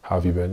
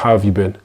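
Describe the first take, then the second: First: The pitch stays flat and unchanging. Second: The pitch moves up and down expressively. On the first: The speaker calls it wrong. "someone monotone will just come and speak like this" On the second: The speaker calls it right. "But vocal variety what is more like"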